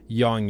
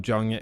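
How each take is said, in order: First: The name begins with a Y sound. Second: The name does not begin with a Y sound. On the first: The speaker calls it right. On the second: The speaker calls it wrong.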